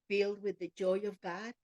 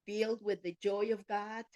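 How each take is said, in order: Both takes have the same delivery.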